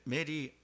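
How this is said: It is said with flat Korean-style syllables. The speaker calls it wrong. "메리를 메리 하면 좀 재미없고"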